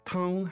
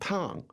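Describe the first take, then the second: First: The syllable is said on a high level pitch. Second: The syllable is said with a sharply falling pitch. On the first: It means soup. "The word tang is first. First tone" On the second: It means extremely hot. "The word fourth tone, tang, means hot"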